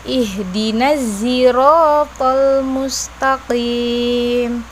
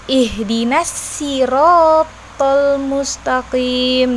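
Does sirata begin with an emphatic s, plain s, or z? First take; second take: z; plain s. First: Sirata begins with a z sound. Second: Sirata begins with a plain s sound. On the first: "dengan huruf zai" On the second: "dengan huruf sin"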